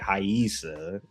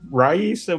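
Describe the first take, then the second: First: The name begins with an H sound. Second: The name begins with an R sound. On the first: "you're supposed to pronounce it Haisa" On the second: "I've been told yes, Raisa"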